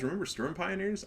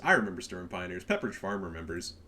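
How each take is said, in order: First: Said in the usual way. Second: Lower, dry Pepperidge Farm meme voice; deadpan meme voice. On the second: Retold or imitated. Answering his own question to viewers, lower deadpan meme voice. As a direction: answer your own question like the old commercial.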